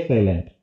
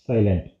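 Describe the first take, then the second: No difference in how they are said.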